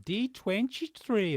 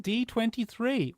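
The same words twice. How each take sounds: First: It is said in a put-on Brazilian accent. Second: It is said in the speaker's plain accent.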